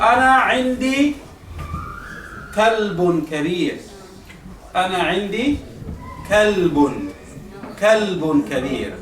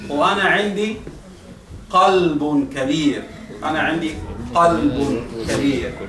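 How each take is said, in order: First: Kalbun said with a light front k; slow demo of kalbun with plain k; Arabic kalbun with a front k. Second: Slow demo of qalbun from the throat; Arabic qalbun with a throaty q. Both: Shown as a demonstration. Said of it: "mira el significado, se cambia".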